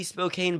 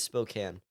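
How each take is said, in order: First: Spokane said "spo-CANE"; spelling pronunciation. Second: Spokane said "spo-CAN"; short A ending. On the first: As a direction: rhyme the end of Spokane with "rain". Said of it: "it looks like it would be Spokane". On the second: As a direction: rhyme the end of Spokane with "man". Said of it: "but it is Spokane". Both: Shown as a demonstration.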